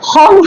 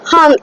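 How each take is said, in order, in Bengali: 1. স্বরধ্বনিটি 'o' ধ্বনির মতো উচ্চারিত হয়। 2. স্বরধ্বনিটি 'a' ধ্বনির মতো উচ্চারিত হয়। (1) "হম হয় না" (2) "হাম, এইচ এ এম"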